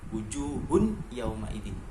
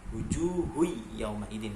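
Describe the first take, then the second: First: The n sound is clearly pronounced on its own. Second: The n sound merges into the following consonant. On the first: The speaker calls it wrong. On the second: The speaker calls it right.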